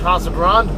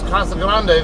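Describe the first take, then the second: First: It is pronounced with English-style sounds. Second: It is pronounced with Spanish-style sounds. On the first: "a lot of people there will call it" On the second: "The proper Spanish way"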